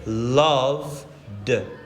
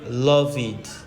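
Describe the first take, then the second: First: The ending is a plain d sound. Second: The ending is an extra syllable, id. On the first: The speaker calls it right. "on va dire loved" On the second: The speaker calls it wrong. "on ne va pas dire love it"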